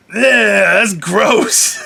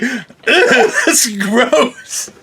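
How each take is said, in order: First: Disgusted. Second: Giggling through disgust; laughing as you say it. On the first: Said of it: "I was just like". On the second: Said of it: "I was like". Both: Retold or imitated.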